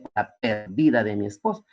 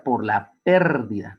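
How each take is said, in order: First: "perdida" stressed on the second syllable, per-DI-da; misread stress. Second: "pérdida" stressed on the first syllable, PÉR-dida; correct stress. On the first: Teacher reads the untilded tombstone wrongly, stress on DI. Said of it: "entonces decía". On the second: Teacher shows students the correct "pérdida" stress. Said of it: "tenía que tildarlo en la E". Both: Shown as a demonstration.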